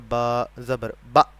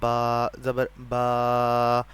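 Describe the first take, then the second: First: The vowel is cut off with a jerk. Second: The vowel is stretched out long. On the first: "झटका देकर पढ़ेंगे तो वैसे होगा" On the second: "लंबा अगर पढ़ने की कोशिश करेंगे तो वैसे होगा"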